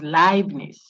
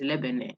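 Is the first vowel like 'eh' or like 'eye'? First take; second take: eye; eh. First: The first vowel sounds like 'eye', as in Einstein. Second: The first vowel sounds like 'eh', not 'eye'. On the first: The speaker calls it right. "So if you saw E I, like Einstein" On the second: The speaker calls it wrong. "I had a student say it's Lebanon"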